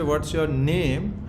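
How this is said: The stress falls on the word name. The name itself is treated as important. "you are assigning importance to his name"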